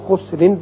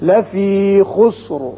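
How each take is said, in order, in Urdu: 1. یہ لفظ ہلکے r اور n پر ختم ہوتا ہے۔ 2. یہ لفظ مکمل، رکے ہوئے r پر ختم ہوتا ہے۔ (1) "جب آپ اگلی آیت سے ملانا چاہیں گے تو خسرن پڑھیں گے" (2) "اور وقت کی صورت میں را پر ہوگا"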